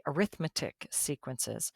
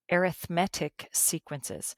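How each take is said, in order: First: Arithmetic said like the school subject, a-RITH-metic; stress on RITH. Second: Arithmetic said with a strong MET, air-ith-MET-ic; stress on MET. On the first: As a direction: lean on the second syllable of arithmetic. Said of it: "I don't say arithmetic sequences". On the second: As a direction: lean on the third syllable of arithmetic. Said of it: "put the emphasis on the different syllable". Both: Shown as a demonstration.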